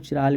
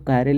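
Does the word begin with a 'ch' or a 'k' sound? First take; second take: ch; k. First: The word begins with a 'ch' sound. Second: The word begins with a 'k' sound. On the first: The speaker calls it wrong. "कुछ लोग इसको चिराल भी बोलते हैं" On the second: The speaker calls it right. "इसीलिए आप इसको कायरल ही बोलिए"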